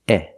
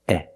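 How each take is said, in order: First: The vowel is cut short. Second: The vowel is cut short.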